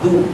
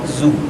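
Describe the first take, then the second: First: The consonant is a soft 'th'-like sound. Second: The consonant is a buzzing 'z' sound. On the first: The speaker calls it right. "Zal, ujung lidah dengan ujung gigi" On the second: The speaker calls it wrong. "bukan zu"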